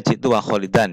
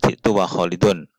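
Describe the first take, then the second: First: The last word ends with an 'an' sound. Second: The last word ends with an 'un' sound. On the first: The name is an accompaniment, not joined to the pronoun. The speaker calls it right. "ini harus dibaca jitu wa kholidan ya" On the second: The name is joined to the subject pronoun. The speaker calls it wrong. "tidak jitu wa kholidun"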